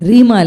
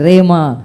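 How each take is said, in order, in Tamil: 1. முதல் உயிரெழுத்து 'ee' போல ஒலிக்கும். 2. முதல் உயிரெழுத்து 'ay' போல ஒலிக்கும். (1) "ரீமா இல்லை"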